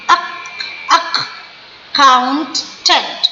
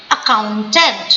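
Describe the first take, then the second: First: accountant slowly as ak... count... tent; slow syllables. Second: Said in the usual way. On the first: Shown as a demonstration. Teacher showing both k sounds, accountant split slowly. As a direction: break accountant apart, ak sounded alone first. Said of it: "इसमें दोनों सी का आवाज क ही है". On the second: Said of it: "slow slow करके बोलिए".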